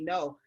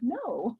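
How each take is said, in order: First: It is said in a firm, blunt way. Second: It is said in a gentle, nice way.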